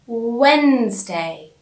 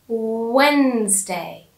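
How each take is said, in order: Both takes have the same delivery.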